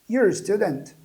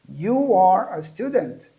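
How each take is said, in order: First: The first two words are merged into one. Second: The first two words are said separately. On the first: "ficou mais rápido, você contraiu"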